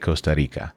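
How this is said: It is said in a Spanish accent.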